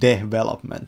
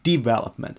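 First: The word is said with a low, flat pitch. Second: The word is said with a high, lifted pitch. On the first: The speaker calls it wrong. "that sounds low" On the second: The speaker calls it right.

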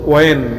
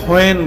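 First: The word begins with a w sound. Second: The word begins with an h sound. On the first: The speaker calls it right. "আমরা বলবো ওয়েন" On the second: The speaker calls it wrong. "অনেকে হয়েন বলে, আসলে হয়েন শব্দটি শুদ্ধ নয়"

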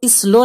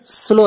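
First: A short 'i' vowel comes before the s. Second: The word starts directly on the s sound. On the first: The speaker calls it wrong. "इसको स्लो नहीं पढ़ना है" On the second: The speaker calls it right. "बल्कि ये स्लो है"

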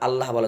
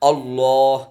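First: The double L sounds light and thin. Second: The double L sounds heavy and full. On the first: The speaker calls it wrong. "আল্লাহ বলা যাবে না" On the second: The speaker calls it right. "এটা হচ্ছে শুদ্ধ"

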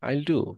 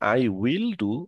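First: 'I will' is shortened into one syllable. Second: 'I will' is said as two full words. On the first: "ওরা সেটাকে বলে আইল। ... এটা সংক্ষিপ্ত হয়ে যায়" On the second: "আমরা যেটা শিখি আই উইল ডু"

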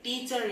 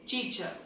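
First: It is said with an American accent. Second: It is said with a British accent. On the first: The speaker calls it wrong. "Teacher is American accent" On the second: The speaker calls it right. "Teacher is Britain pronunciation, Britain accent"

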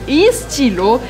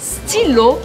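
First: The word starts with an added vowel before S. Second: The word starts directly with the S sound. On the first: The speaker calls it wrong. "você não pode falar estilo ou estilo" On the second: The speaker calls it right. "você tem que falar stylo, começando com S"

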